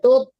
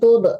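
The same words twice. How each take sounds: First: The final t is held in with no bounce. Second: The final t is released with a bouncing echo. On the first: The speaker calls it right. "nggak boleh dipantulkan ya ... di dalam aja bunyinya" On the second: The speaker calls it wrong. "Jadi jangan tut, nggak boleh dipantulkan"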